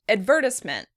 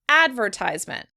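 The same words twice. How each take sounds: First: The stress is on the second syllable. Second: The stress is on the first syllable. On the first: "In the British version, the stress is on the second syllable" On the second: "the stress in the American version is on the first syllable"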